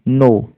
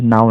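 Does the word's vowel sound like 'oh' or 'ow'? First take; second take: oh; ow. First: The vowel sounds like 'oh' in go. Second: The vowel sounds like 'ow' in cow. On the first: The speaker calls it right. "इसको नो पढ़ा जाता है" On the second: The speaker calls it wrong. "नाउ नहीं, कई लोग नाउ पढ़ देते हैं, जो कि नहीं करना है ऐसा"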